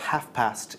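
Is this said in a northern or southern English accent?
northern. It is said in a northern English accent.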